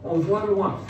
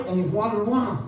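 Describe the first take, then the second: No difference in how they are said.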